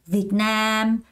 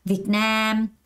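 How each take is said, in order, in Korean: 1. 강세는 두 번째 음절에 있어요. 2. 강세는 두 번째 음절에 있어요.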